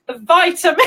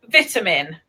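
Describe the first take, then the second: First: "vitamin" with a long i, as in "bite", breaking into laughter; imitated American vitamin. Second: "vitamin" with a short i, as in "bit"; British vitamin. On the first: British host attempts her American friend's word, imitated American vitamin. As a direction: have a go at the American VY-ta-min. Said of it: "pronounce it like we, like each other". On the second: Shown as a demonstration. British host shows her American guest how she says it, British vitamin. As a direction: say "vitamin" the British way, VIT-a-min. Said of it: "we say vitamin".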